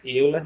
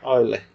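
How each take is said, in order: First: The name is read the way it is spelled. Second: The name is said in its usual pronunciation. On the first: "a escrita é Euler" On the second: "mas a pronúncia é Euler"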